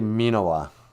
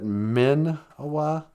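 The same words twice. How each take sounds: First: The first vowel is a long ee sound. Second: The first vowel is a short i sound. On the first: The speaker calls it right. "but it's actually ... Two I's ... is the E sound" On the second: The speaker calls it wrong. "I usually kind of pronounce it"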